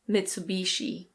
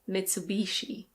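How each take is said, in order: First: It is said with an American pronunciation. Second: It is said with an American pronunciation.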